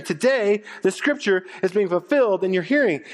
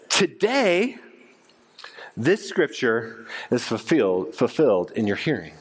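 First: Higher, livelier retelling; lifted restatement. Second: Jesus' words, measured and grave; solemn declaration. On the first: Shown as a demonstration. Preacher restating the line for the congregation, lifted and lively. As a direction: say it again brighter, explaining. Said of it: "What is Jesus saying?". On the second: Acted. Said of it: "But he says this".

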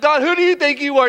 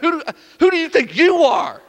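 First: High, raised challenge to God; acted affronted question; indignant challenge. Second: "you" hit hard in a high voice; loud acted comeback stressing "you"; indignant retort on YOU. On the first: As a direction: confront him in one quick run. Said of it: "have you ever had that conversation". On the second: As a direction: throw the question back, punching "you". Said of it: "He's like".

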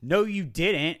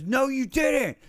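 First: A firm, raised retold no; retold denial. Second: Much higher, louder retold yell; aggressive yell. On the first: Stranger at the store insisting he never apologized, firm retold denial. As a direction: push back with a curt denial, a touch louder. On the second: Big stranger escalating the argument at the store, imitating his angry yell. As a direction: snap it back as a hot, aggressive yell. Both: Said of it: "he immediately got aggressive and yelled".

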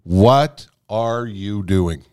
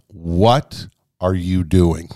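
First: Slow repeated self-question. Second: Slow self-question. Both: Retold or imitated. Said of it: "I thought to myself".

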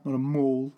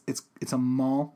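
First: "mall" said as "mawl" with a rounded aw; "mall" with the standard rounded aw vowel; mall pronounced mawl. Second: Mall said as "mahl" with an open ah vowel; New Mexico way of saying "mall" as mahl; mall pronounced mahl. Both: Shown as a demonstration.

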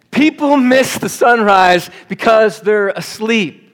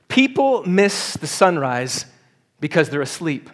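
First: Louder, higher, slower restatement; emphatic repeat. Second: Said in the usual way. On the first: Shown as a demonstration. Pastor repeats his point to a yawning crowd, loud and slow. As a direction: drive the point home to the congregation.

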